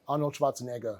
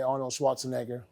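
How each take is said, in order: First: The name is said in a thick German accent. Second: The name is said in an American accent. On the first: The speaker calls it right. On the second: The speaker calls it wrong.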